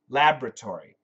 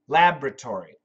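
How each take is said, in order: First: It is said with an American pronunciation. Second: The same.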